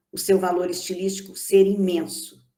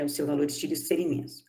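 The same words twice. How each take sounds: First: Said in the usual way. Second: "o seu valor estilístico ser imenso" said again quickly and softer, like a rapid aside; fast, softer restatement of the same point; quick quiet repeat. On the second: Shown as a demonstration. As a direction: rattle the repeat off quickly and softly. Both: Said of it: "lecturer repeats point to stress it".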